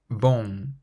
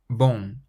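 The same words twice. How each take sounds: The two takes are said the same way.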